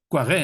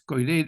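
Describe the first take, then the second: First: The name is said with French pronunciation. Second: The name is said with Spanish pronunciation. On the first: "en francés" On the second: "pronunciada a la española"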